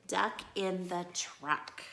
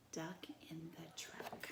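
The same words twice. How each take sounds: First: Said in the usual way. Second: Breathy hushed whisper of the title; soft whispered title. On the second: Shown as a demonstration. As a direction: whisper it like a secret.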